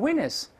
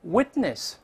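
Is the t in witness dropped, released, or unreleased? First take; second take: dropped; unreleased. First: The t is left out completely. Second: The t is held without being released. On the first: The speaker calls it wrong. "但是不读也不行，也不能读成witness" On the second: The speaker calls it right. "注意这个t 是失去爆破"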